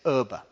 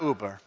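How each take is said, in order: First: It has a German pronunciation ending in a vowel. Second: It has an English pronunciation with a final r. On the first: The speaker calls it right. "it's Uba. ... trying to do the German thing" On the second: The speaker calls it wrong. "it's not Uber"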